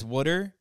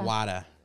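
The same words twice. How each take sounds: First: It is said in a Philadelphia accent. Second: It is said in a Boston accent.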